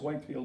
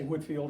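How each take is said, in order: First: The first syllable sounds like 'white'. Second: The first syllable sounds like 'wit'. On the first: This is the proper way to say it. The speaker calls it right. "I think the proper pronunciation is Whitefield" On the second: This is how the speaker learned to say it. The speaker calls it wrong. "I learned to say Whitfield"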